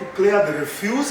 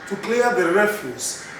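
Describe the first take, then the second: First: The stress is on the second syllable. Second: The stress is on the first syllable. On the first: The speaker calls it wrong. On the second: The speaker calls it right.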